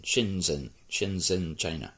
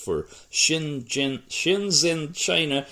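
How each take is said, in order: First: Shenzhen said softly with a falling, sure tune; settled Shenzhen. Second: Shenzhen said with a questioning rise, unsure; tentative Shenzhen. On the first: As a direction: confirm Shenzhen, quiet and falling. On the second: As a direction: try out Shenzhen rising, like asking. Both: Real, not acted. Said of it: "Yes, Shen".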